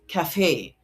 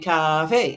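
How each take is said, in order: First: The stress is on the second syllable. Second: The stress is on the first syllable. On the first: "are second syllable stress words. So it is pronounced cafe" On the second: "the syllable stress for cafe should be cafe"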